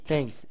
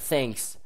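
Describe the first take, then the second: First: The word begins with a th sound. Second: The word begins with a plain t sound. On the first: The speaker calls it right. "T H" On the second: The speaker calls it wrong. "c'est pas thanks"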